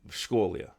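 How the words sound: The two words are blended into one word. The speaker calls it right. "It's blended together as if it's one word"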